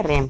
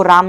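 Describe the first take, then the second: First: "रैम" with an open ai vowel, as in English RAM; correct RAM reading. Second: "राम" with a long open aa vowel; misreading of RAM. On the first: Teacher showing students how to read RAM, "रैम" with ai vowel. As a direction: say "रैम" to rhyme with English "ham". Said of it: "रैम पढ़ेंगे". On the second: Teacher warning students off a misreading, "राम" with long aa. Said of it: "इसको राम नहीं पढ़ेंगे". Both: Shown as a demonstration.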